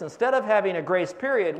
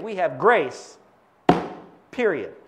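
First: Said in the usual way. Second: Grace, then a beat, then period; pause before period. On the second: Shown as a demonstration. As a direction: drop into period after a beat. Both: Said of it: "but it goes like this".

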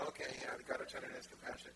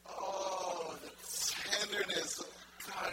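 First: Casual, unmoved acknowledgement; mock indifference. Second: Loud, overcome cry of wonder; acting out being flooded with feeling; overwhelmed awe. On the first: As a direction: toss it off like old news. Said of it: "And we go". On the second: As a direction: feel it through your whole body as you say it. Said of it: "he experiences it all through his body".

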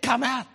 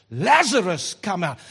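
First: Softer call. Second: Calling a dead man out, loud; shouted command. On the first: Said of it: "Imagine if he said". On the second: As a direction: shout Lazarus out of the grave. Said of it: "in a cemetery he shouts". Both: Retold or imitated.

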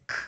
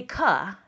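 First: "k" as a bare unvoiced click with no vowel; just the sound, no uh; pure letter sound. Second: "ka" said with an added uh vowel; wrong schwa sound. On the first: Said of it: "It says". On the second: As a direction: sound the letter with an extra vowel. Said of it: "the C does not say". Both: Shown as a demonstration.

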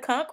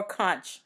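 First: "conch" said as "konk"; "conch" with a hard k ending, like "kunk". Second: "conch" said as "kontch"; "conch" with a ch sound at the end. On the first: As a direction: say "conch" to rhyme with "honk", ending in a K. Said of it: "Do you pronounce it conch or conch". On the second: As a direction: end "conch" on a soft ch, as in "launch". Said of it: "How do you pronounce it?". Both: Shown as a demonstration.

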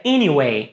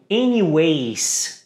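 First: "anyway" ending on the vowel, no S; correct pronunciation. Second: "anyways" with a final S sound, eniwes; wrong pronunciation. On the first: Teacher gives students the correct form: "anyway" without S. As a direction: say "anyway" cleanly, eniwei, no final S. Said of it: "mas na verdade a palavra é anyway". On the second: Teacher shows the common US mistake: "anyways" with S. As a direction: say "anyways" ending in a clear S. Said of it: "pronunciam anyways com um S no final". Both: Shown as a demonstration.

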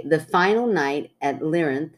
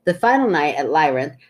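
First: "Lyrinth" said LIH-rinth, short i as in "lit"; slow careful "Lyrinth" with a short first vowel, LIH-rinth; unsure place name. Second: "Lyrinth" said LYE-rinth, long i as in "lie"; "Lyrinth" retried with an eye sound, LYE-rinth; other pronunciation. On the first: Host reading a listener's story, tries "Lyrinth" with a short i, LIH-rinth. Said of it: "We don't know if we're saying that right". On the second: Host reading the story again, says "Lyrinth" as LYE-rinth. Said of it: "I say it different every time". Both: Shown as a demonstration.

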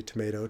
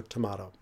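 First: Tomato with an AY in the middle, to-MAY-to; American pronunciation. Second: Tomato with an AH in the middle, to-MAH-to; alternative pronunciation. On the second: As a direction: say tomato with the middle rhyming with "spa". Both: Shown as a demonstration. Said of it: "It's simply tomato, tomato".

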